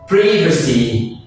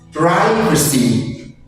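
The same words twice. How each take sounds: First: It is said in a British accent. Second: It is said in an American accent. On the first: "en anglais britannique" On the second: "En anglais américain"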